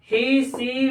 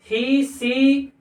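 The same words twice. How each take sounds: First: Said in the usual way. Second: "ही" and "सी" said very slowly with the ee held long; slow long ee demonstration. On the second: Shown as a demonstration. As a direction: drag out the ee in "ही, सी" for the class. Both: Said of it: "बड़ी ई की आवाज देते हैं".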